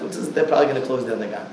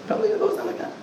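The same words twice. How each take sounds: First: Said in the usual way. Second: Sharply higher, mocking squeak. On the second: Shown as a demonstration. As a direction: squeak it up high in mockery.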